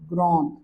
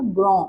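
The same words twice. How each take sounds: First: ग्रॉन with the final consonant sounded; French grande. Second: ग्रॉ with a nasal end and no final d; French grand. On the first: Teacher models ग्रॉन with the consonant sounded. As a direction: say ग्रॉन, ending voiced. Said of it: "अब आप इसको पढ़ोगे". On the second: Teacher recalls ग्रॉ, final d silent. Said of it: "आपने इसको पहले पढ़ा था". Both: Shown as a demonstration.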